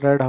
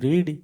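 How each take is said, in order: First: The vowel is short, like 'red'. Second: The vowel is long, like 'reed'. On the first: It is the past participle form. "Spelling ସମାନ କିନ୍ତୁ ପ୍ରନାଉନ୍ସିଏସନ୍ ରେଡ୍ ହେବ" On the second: It is the present form. "ପଢ଼ିବାର English ହେଉଛି ରିଡ୍"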